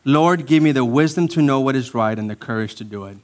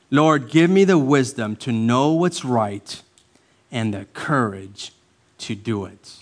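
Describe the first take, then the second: First: Said in the usual way. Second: Slow, phrase by phrase, softening at the end; deliberate prayer. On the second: Shown as a demonstration. Pastor repeating a model prayer for congregation, slow and deliberate. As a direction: pray it slowly with pauses between phrases.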